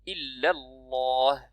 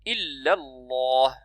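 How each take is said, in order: The two takes are said the same way.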